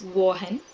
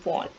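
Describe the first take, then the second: First: The gh in the name is sounded. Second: The gh in the name is silent. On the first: The speaker calls it wrong. "we should not pronounce this as Vaughan" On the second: The speaker calls it right. "G H is silent"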